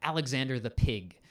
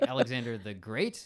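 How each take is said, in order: First: PIG for Big, the B turned to P. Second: Said in the usual way. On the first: Acted. Welsh commander naming Alexander, B turned to P in Pig. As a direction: say Pig where Big is meant. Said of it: "says all his B's as P's". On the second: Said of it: "guy that's with him is like".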